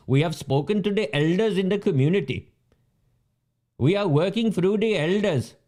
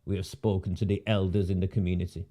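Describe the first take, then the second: First: Mocking recital of a stock statement; mocking official. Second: Low, soft mocking repeat; dismissive mimicry. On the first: Ridiculing officials who speak only to elders, mocking parroting. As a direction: parrot it in a raised, mock-official voice. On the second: After calling the official a numpty, low dismissive mimicry. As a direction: parrot it under your voice, low and dismissive.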